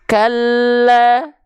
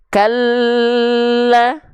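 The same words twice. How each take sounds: First: The doubled l is only pressed, kept short. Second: The doubled l is held for a long time. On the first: The speaker calls it right. "Atau cuma ditekan saja" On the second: The speaker calls it wrong. "atau ditahan"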